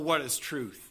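It is asked in a sarcastic, dismissive tone. The asker dismisses the idea of truth. The speaker calls it right. "I think he had a sarcastic tone"

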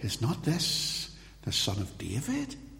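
It sounds like a genuine, uncertain question. They are asking whether he is the Messiah. "was this an inquiry?"

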